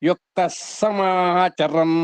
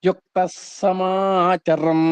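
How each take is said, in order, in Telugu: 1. మొదటి పదం s ధ్వనితో ముగుస్తుంది. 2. మొదటి పదం s ధ్వనితో ముగుస్తుంది.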